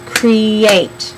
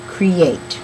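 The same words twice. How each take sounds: First: Create drawn out as two beats, "cree-ate"; syllable demonstration. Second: Said in the usual way. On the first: Shown as a demonstration. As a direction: stretch both syllables of Create for counting. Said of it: "Sounds like two syllables to me".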